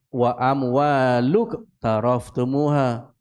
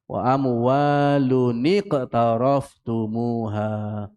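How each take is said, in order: First: The words join directly without an added 'ni' sound. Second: An added 'ni' sound links the two words. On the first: The speaker calls it wrong. "dia tak boleh" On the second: The speaker calls it right. "Tapi kena menjadi"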